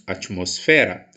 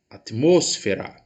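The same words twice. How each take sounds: First: The stress falls after the syllable mos. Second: The stress falls on the syllable mos. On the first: This is the Portuguese pronunciation. "Nós dizemos atmosfera" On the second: This is the Spanish pronunciation. "Em espanhol, diz-se atmosfera"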